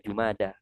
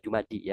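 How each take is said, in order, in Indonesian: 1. Kata ini berakhir dengan vokal 'a'. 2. Kata ini berakhir dengan vokal 'i'. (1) "Jadi dibaca Jumada, bukan ya" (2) "Mungkin teman-teman sering mendengar Jumadi ya"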